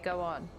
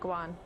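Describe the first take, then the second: First: It is said in a southern English accent. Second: It is said in a northern English accent. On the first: "I'm southern, so it's slightly different. We say go on" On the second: "they will pronounce it like go on"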